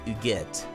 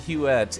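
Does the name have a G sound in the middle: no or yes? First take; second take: yes; no. First: The name is said with a middle G sound. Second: The name is said without a middle G sound. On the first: "it was pronounced Huguette. Like the French name" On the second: "Pronouncing the name Huette is very uncomfortable for me"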